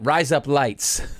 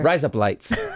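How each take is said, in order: First: The words are said slowly and separately. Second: The words are said quickly, run together.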